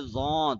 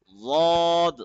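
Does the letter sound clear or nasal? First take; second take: nasal; clear. First: The letter is said through the nose. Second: The letter is said without nasal sound. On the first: The speaker calls it wrong. "don't say Lord. Don't read it in nose" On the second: The speaker calls it right. "Say instead Lord"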